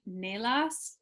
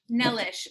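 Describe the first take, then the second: First: The name does not end with an 'ish' sound. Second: The name ends with an 'ish' sound. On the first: The speaker calls it wrong. "Am I pronouncing that right?" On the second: The speaker calls it right. "Rhymes with delish"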